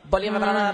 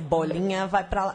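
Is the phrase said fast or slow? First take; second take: fast; slow. First: The phrase is said quickly. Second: The phrase is said slowly. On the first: The speaker calls it right. "Tem que ser mais rápido com ela" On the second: The speaker calls it wrong. "Não pode ser bolinha vai pra lá"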